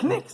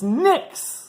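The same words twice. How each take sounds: First: The initial K is pronounced aloud. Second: The initial K is silent. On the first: The speaker calls it wrong. "it's not Knicks" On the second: The speaker calls it right. "it's a silent K. It's Knicks"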